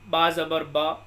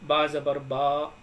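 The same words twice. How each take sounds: First: The final vowel is short and quick. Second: The final vowel is drawn out long. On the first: The speaker calls it right. "इस तरीके से हम बिल्कुल भी बग़ैर खींचे इसको पढ़ेंगे।" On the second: The speaker calls it wrong. "इनको खींचकर हम बिल्कुल भी नहीं पढ़ेंगे। जैसे बा ज़बर बा, ऐसे नहीं पढ़ेंगे।"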